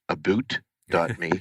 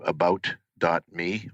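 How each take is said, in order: First: 'About' is said like 'aboot', Canadian-style. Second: 'About' is said in his usual accent.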